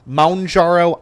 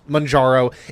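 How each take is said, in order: First: The first syllable sounds like 'mount'. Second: The first syllable sounds like 'man'. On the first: This follows the spelling. "That's kind of how it's spelled" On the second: This is the usual pronunciation. "it's typically pronounced Manjaro"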